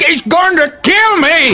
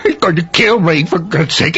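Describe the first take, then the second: First: Panicked cry. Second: Low, rushed, frightened begging; terrified plea. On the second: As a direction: gasp it out in terror. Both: Acted. Terrified man begging for hiding.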